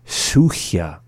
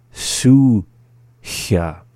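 First: Said in the usual way. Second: "Suchia" split, long "Su", pause, then "chia"; slowly. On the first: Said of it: "up to speed". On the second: Shown as a demonstration. Teacher giving word examples, "Suchia" said slowly in syllables. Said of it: "the second time slowly".

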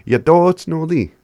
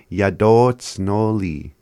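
First: Yadotsnoli called out high and loud, bright and cheerful; happy demo. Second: Yadotsnoli said very slowly, each syllable laid out and falling; slow pronunciation. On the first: Teacher showing learners how to sound happy. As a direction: belt Yadotsnoli out like you're delighted. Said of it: "to sound happy". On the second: Teacher drilling the word slowly for learners. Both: Shown as a demonstration.

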